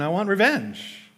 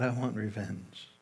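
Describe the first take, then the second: First: Revenge stressed, higher and slow; emphatic. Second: Much softer, lower, slow "revenge"; quiet. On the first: Preacher confesses his wish to the congregation with emphasis. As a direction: lean hard on "revenge". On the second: Preacher confesses his wish, praying quietly to God. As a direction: breathe "I want revenge" to God. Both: Real, not acted.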